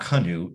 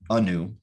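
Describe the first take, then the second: First: The name begins with an audible H sound. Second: The name begins directly with a vowel. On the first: The speaker calls it wrong. "it's not Hanu" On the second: The speaker calls it right. "The H is silent"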